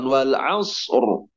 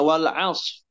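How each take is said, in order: First: A full heavy r with no echo on s. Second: The final r sound is dropped entirely. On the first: The speaker calls it right. "ro-nya tebal dan sodnya tidak dipantulkan" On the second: The speaker calls it wrong. "menghilangkan huruf ro-nya"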